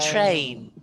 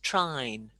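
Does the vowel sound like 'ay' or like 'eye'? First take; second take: ay; eye. First: The vowel is a long 'ay' sound. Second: The vowel is an 'eye' sound. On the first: The speaker calls it right. "train is a long A" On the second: The speaker calls it wrong. "don't say train by dropping your mouth, otherwise it becomes trine"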